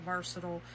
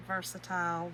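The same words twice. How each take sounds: First: "versatile" ending in a quick "tl"; short-ending versatile. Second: "Versatile" ending like "tile"; long-i versatile. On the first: Crafter offering viewers another pronunciation, versatile with short ending. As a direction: say "versatile" as VER-suh-tl. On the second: Crafter offering viewers another pronunciation, versatile with long i. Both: Shown as a demonstration. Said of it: "However y'all say it".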